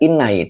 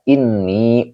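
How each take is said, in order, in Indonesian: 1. Kata ini berakhir dengan bunyi 'ai'. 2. Kata ini berakhir dengan bunyi 'ee'. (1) "tidak dibaca inai" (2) "tetapi dibaca ini untuk memudahkan kiroat"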